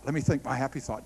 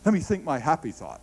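First: Murmured to herself, faster and softer; soft, quick repeat. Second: Said in the usual way. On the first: Retold or imitated. Daughter reminding herself, repeating it softly and quickly. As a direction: say it again under your breath, quickly.

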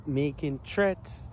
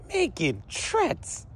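First: Said in the usual way. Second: High, drawn-out disbelief; stretched-out incredulous question; incredulous echo. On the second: Retold or imitated. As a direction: repeat the accusation slowly, pitched up in disbelief. Incredulous echo of officer's accusation.

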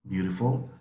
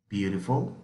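The two takes are said the same way.

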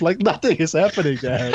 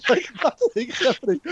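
First: Said in the usual way. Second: Exasperated high repeat. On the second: Real, not acted. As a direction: voice jumps much higher in disbelief.

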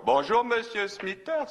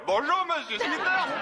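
First: A slow call across the hedge, higher and drawn out. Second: A big high yell, hammed up for the story. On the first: Retold or imitated. Bert greeting his neighbour across the hedge, a slow drawn-out call. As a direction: call over to the neighbour politely but slowly. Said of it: "je crie dans sa direction". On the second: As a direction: bellow it so the next county hears. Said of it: "d'une voix qu'on entendrait dans le comté voisin, moi, je lui hurle".

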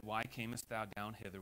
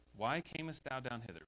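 First: Said in the usual way. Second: "Why camest thou down hither?" preached louder, with "why" punched hard; preached emphasis. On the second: Shown as a demonstration. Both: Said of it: "I didn't get to preach or apply it here".

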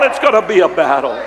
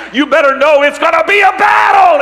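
First: Said in the usual way. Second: High, loud shout landing hard on "battle"; thundering preacher's shout; shouted warning. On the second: Acted. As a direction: belt "battle" at the congregation.

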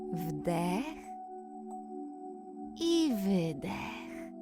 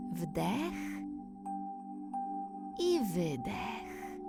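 No difference in how they are said.

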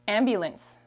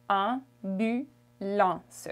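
First: Said in the usual way. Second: Ambulance very slowly in French, nasal un at the start and end; French pronunciation. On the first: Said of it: "Ambulance in French is". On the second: Shown as a demonstration. Teacher modelling the nasal sound in ambulance. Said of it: "that's a nasal sound".

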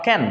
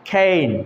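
First: Can with a short "a"; short vowel, mistaken. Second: Cane as "kayn", vowel drawn out; long A. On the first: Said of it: "not can". (can, ছোট অ্যা দিয়ে) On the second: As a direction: stretch the "ay" in cane. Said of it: "long এ, কেন". (cane-এর এ টেনে লম্বা করে) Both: Shown as a demonstration.

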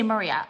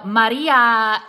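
First: Said in the usual way. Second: Maria drawn out loud with a Spanish tapped r; mock Spanish accent. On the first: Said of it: "Why can't they say Maria?". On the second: Vlogger mocking newscasters switching accents, exaggerated Spanish accent. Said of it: "in, like, the Spanish accent".

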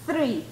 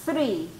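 No difference in how they are said.

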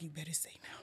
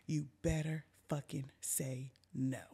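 First: Whispered, low threat; hushed warning. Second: Low, soft, word-by-word threat; menacing warning. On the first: Storyteller to friend being questioned about drugs, hushed warning. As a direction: warn her under the breath. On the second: Storyteller to friend questioned about drugs, measured menacing warning. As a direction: space out each word of "better fucking say no". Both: Retold or imitated.

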